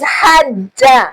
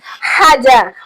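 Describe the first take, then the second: First: The middle j sound is held and doubled. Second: The middle j sound is short and single. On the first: "There's a difference between Haja and Haja" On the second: "the one that does not have um, Suk- um Shedda"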